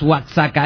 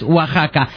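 First: The x is sounded like ks. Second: The x is sounded like a j. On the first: The speaker calls it wrong. "no es Oaxaca" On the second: The speaker calls it right. "es Oaxaca"

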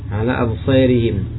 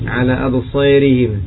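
First: The long vowel is tilted toward e. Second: The same.

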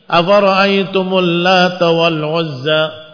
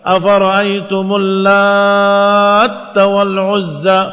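First: The t in Lata is short and single. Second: The t in Lata is doubled after a long vowel. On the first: It is a feminine name derived from the word for god. "takhfif di huruf ta" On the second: It is an active participle meaning one who mixes. "Yang kedua ditasydidkan di huruf ta"

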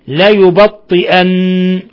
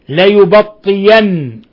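First: A glottal stop is pronounced before the ending. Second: A y sound replaces the glottal stop. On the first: "بالهمز" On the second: "بإبدال الهمزة ياء"

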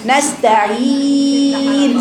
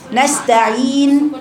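First: The final long vowel is held for six counts. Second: The final long vowel is held for two counts. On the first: "نستعين ست حركات" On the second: "نستعين حركتين"

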